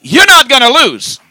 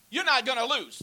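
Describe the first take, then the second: First: Preacher booming God's promise; loud proclaiming. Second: A quiet first take of God's promise. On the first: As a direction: belt "not" with force and rising pitch. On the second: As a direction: say it gently, holding back. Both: Shown as a demonstration.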